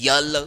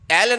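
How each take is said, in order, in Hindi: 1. यह स्वर से पहले 'y' ग्लाइड से शुरू होता है। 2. यह साधारण 'e' स्वर से शुरू होता है।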